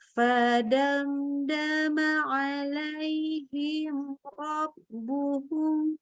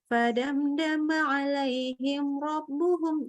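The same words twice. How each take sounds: First: The phrase is recited slowly. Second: The phrase is recited quickly. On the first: "Kita pelankan jadi" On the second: "yang biasanya kita mungkin cepat segini"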